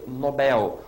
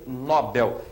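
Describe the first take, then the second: First: The stress is on the last syllable. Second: The stress is on the first syllable. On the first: The speaker calls it right. "e sim prêmio Nobel, oxítona" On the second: The speaker calls it wrong. "não se diz prêmio Nobel"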